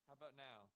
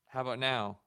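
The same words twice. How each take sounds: First: The voice is recorded quiet and faint. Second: The voice is recorded louder and fuller. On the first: The speaker calls it wrong. "Still quiet" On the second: The speaker calls it right. "that's probably good"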